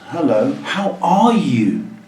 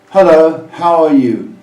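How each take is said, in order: First: The greeting sounds lively and engaged. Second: The greeting sounds flat and bored. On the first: The listener is more likely to answer. The speaker calls it right. "you're more likely to answer" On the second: The speaker does not really care. The speaker calls it wrong.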